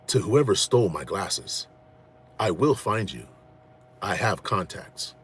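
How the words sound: It is said in a put-on, menacing voice.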